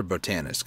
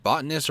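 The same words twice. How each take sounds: First: "botanist" stressed on the second syllable; "botanist" with a long first O and a stressed TAN; bo-TAN-ist pronunciation. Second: "botanist" stressed on the first syllable; "botanist" in two syllables, opening with BOT; BOT-nist pronunciation. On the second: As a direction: say "botanist" as BOT-nist, middle vowel dropped. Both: Shown as a demonstration. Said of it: "Is it botanist or botanist?".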